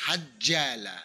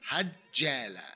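Both takes have the same delivery.

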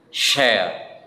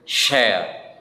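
First: It is said in a British accent. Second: It is said in a British accent.

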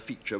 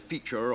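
First: The final R is dropped. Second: The final R is pronounced. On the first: This is the modern English way of saying it. "we just say creature, feature. We got rid of the R" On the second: This is the older way of saying it. "instead of saying feature or creature"

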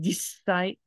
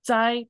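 First: The s sound is held long without a stop. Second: A brief stop closes before the s sound. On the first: "normally the S kind of continues it becomes a longer S" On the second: "theoretically you say jitsai"

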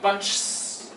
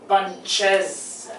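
First: The word is said with one syllable. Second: The word is said with two syllables. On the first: The speaker calls it wrong. "Plural of ch is not bunches" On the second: The speaker calls it right. "it's bunches, bunches, bunches. Two sounds"

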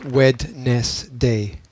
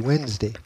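First: The D in the middle is pronounced. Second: The D in the middle is silent. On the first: It follows the written spelling. "which I had to remember as Wednesday, because the spelling was just so weird" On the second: It is the everyday pronunciation. "you don't pronounce the D, you just say Wednesday"

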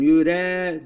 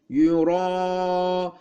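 First: The r sound is thin and light. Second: The r sound is thick and heavy. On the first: The speaker calls it wrong. "Yani bu ye ra'yı inceltmesin. Yüre değil" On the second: The speaker calls it right.

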